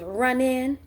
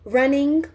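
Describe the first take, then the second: First: The ending is said without the g sound. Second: The ending is said with the g sound.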